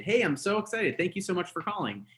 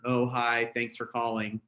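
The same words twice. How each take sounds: First: Higher, eager phone greeting; excited. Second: Bored, listless hello; droopy phone greeting; flat, low-energy greeting. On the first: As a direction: gush with happy energy. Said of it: "Be excited". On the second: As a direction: mumble it like you don't care. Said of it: "it's not gonna work". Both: Shown as a demonstration.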